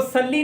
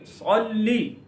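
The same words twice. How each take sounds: First: सल्ली with a light s and short flat a; thin S. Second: सल्ली with thick s and rounded, o-like first vowel; heavy Saad. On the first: Teacher shows how not to read it, thin S. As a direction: say सल्ली thinly, unrounded. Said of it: "इसको सल्ली नहीं पढ़ेंगे". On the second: Teacher corrects to the heavy letter, thick Saad. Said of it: "इसको मोटा पढ़ेंगे". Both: Shown as a demonstration.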